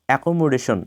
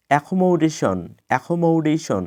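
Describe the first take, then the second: First: অ্যাকোমোডেশন with plain k and o, "e-ko-mo-de-shon"; common mispronunciation. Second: অ্যাকোমোডেশন with aspirated k, "e-kho-mow-de-shon"; correct pronunciation. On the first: Teacher quotes the usual form, mispronounced. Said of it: "এটা অ্যাকোমোডেশন নয়". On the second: Teacher corrects the usual form, correctly pronounced. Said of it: "কিন্তু এটা অ্যাকোমোডেশন নয়". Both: Shown as a demonstration.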